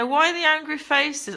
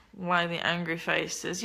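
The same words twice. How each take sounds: First: Higher, pointed challenge to the viewers; challenging viewers after reading their comment; indignant repeat. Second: Reads the comment under her breath, slowly; half to herself, low and slow; quietly reading a viewer's comment aloud; muttered reading. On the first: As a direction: throw the question back at them. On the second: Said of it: "Yeah, why the angry faces?". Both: Real, not acted.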